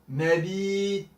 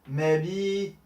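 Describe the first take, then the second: Both takes have the same delivery.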